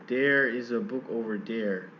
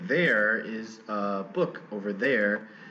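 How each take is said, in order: First: The word there begins with a d-like sound. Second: The word there begins with a th sound. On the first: "it's more like there. ... replaced with a sound closer to d" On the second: "Instead of saying"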